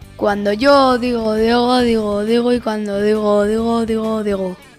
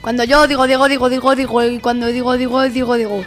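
First: It is said at a medium speed. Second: It is said at the fastest speed.

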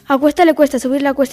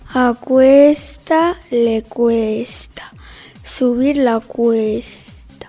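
First: It is spoken at a fast pace. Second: It is spoken at a slow pace. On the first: "Velocidad rápida"

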